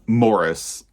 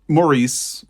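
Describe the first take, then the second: First: The name is said the British way. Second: The name is said the American way. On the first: "as this is pronounced in the U K" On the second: "in the U S, we say Maurice"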